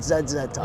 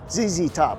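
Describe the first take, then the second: First: The letters are pronounced 'zed'. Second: The letters are pronounced 'zee'. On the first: The speaker calls it wrong. "Not Z Z Top" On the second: The speaker calls it right. "your favorite band from the seventies, eighties is Z Z Top"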